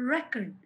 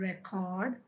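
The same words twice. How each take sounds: First: The stress is on the first syllable. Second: The stress is on the second syllable. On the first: It is a noun naming a notebook of observations. "Noun కాబట్టి దానికి first syllable మీద మనం stress ఇవ్వాలి" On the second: It is a verb meaning to note down. "Second syllable మీద stress ఉంది"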